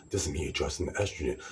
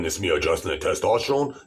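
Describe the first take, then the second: First: Quick, eased-off demonstration voice; estrogen voice demo. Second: Loud, pushed demonstration voice; testosterone voice demo. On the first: Man demonstrates adjusting estrogen, fast lighter voice. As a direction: drop the force and hurry through. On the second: Man demonstrates adjusting testosterone, loud pushed voice. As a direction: say it forcefully, at full volume. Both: Shown as a demonstration.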